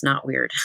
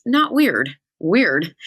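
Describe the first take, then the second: First: Said in the usual way. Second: Mock middle-schooler. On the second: Shown as a demonstration. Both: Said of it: "Do you like that I say that".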